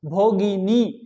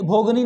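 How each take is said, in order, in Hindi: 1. यह शब्द तीन अक्षरों में बोला जाता है। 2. यह शब्द दो अक्षरों में बोला जाता है।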